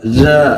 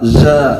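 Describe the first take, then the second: The two takes are said the same way.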